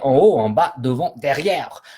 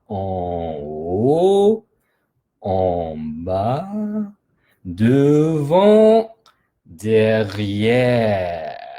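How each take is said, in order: First: The words are said very fast. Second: The words are said very slowly. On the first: "On va faire très vite" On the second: "On va faire très lentement"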